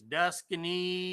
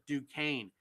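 First: The name is said with three syllables. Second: The name is said with two syllables. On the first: This is how the spelling looks to an English reader. "It looks to me like it's Duscany" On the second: This is how the French say it. "they pronounce it Duquesne"

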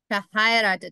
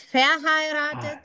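First: The stress is on the second syllable. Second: The stress falls on another syllable. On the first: The speaker calls it right. "Also du musst auf I Akzent I. Und ja, diese Betonung machen" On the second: The speaker calls it wrong. "Also nicht verheiratet"

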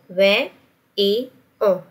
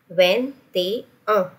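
First: Each word is said separately with breaks. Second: The words run together with a linking sound.

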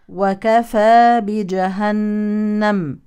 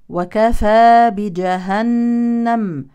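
No difference in how they are said.

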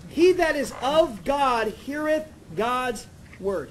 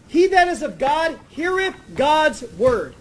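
First: It is said slowly and deliberately. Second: It is said at a normal pace.

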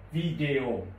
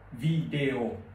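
Both takes have the same delivery.

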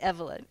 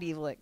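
First: It sounds like 'benevolent' without 'ben'. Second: It does not sound like 'benevolent' without 'ben'. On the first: The speaker calls it right. "It's Evolent. as in benevolent" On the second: The speaker calls it wrong. "It's not Evolent"

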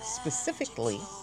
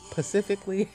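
First: The word begins with an sp sound. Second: The word begins with a plain p sound. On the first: The speaker calls it right. "the word specific" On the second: The speaker calls it wrong. "they say it's Pacific"

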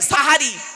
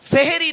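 First: The first vowel sounds like a. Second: The first vowel sounds like e. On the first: It means the meal at the end of night. The speaker calls it right. "দন্তেশয় আকার।" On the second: It relates to the word for magic. The speaker calls it wrong. "দন্তেশয় একার বলবেন না"

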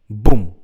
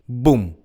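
First: The B gives a harsh, popping burst of air. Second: The B gives a soft, muted burst of air. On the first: "Ось як він буде звучати без поп-фільтра" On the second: "І тепер із поп-фільтром"

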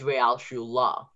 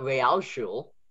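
First: The final e is pronounced as a vowel. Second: The final e is left silent. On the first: The speaker calls it right. "it's Realschule" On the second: The speaker calls it wrong. "the E at the ending is not Realschule"

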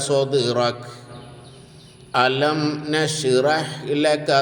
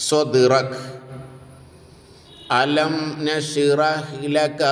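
The two takes are said the same way.

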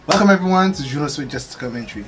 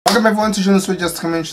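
First: It is said slowly. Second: It is said fast.

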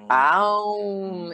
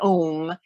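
First: The word is drawn out over three syllables. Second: The word is short, a single syllable. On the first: The speaker calls it right. "the true way you pronounce it in Sanskrit is even longer than om. It's aum. It's got three syllables" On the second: The speaker calls it wrong. "even longer than om"

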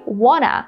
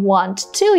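First: It is said as one reduced word. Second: It is said as two full words. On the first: "you can say wanna" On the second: "instead of saying want to"

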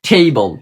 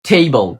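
No difference in how they are said.

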